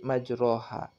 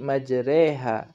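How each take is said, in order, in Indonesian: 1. Vokal setelah r terdengar seperti 'o'. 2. Vokal setelah r terdengar seperti 'e'. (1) "Tidak boleh dibaca menjadi majroha" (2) "dibaca menjadi majreha"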